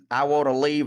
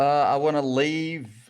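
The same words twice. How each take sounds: First: It is said in a neutral accent. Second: It is said in a Southern accent.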